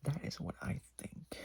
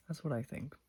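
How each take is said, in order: First: Unvoiced conspiratorial whisper. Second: Said in the usual way. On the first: Real, not acted. Whispering her theory to the viewers. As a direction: lean in and whisper it. Whispered repeat of line 144.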